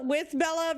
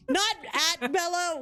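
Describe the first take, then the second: First: "with" stressed against "at"; "with Bella", contrast falling on "with". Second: "at" set apart and stressed before "Bella"; "not at Bella" with the contrast on "at". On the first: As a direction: lean on "with" to correct the contrast. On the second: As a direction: lean on the word "at", then pause. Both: Real, not acted. Contrasts laughing at and with.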